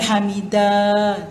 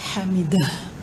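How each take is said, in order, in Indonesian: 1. Kata ini tidak memiliki bunyi h di akhir yang terdengar. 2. Kata ini berakhir dengan bunyi h yang bergema. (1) "Dia bukan hamidah tu, kosong tak" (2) "Bergema bunyi ha"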